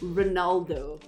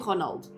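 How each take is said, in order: First: The name is said with English pronunciation. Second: The name is said with Portuguese pronunciation. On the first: "in English you say Ronaldo" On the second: "That's his name in Portuguese"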